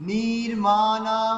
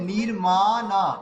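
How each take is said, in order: Both takes have the same delivery.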